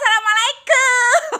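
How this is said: It is said in a cheerful, smiling way.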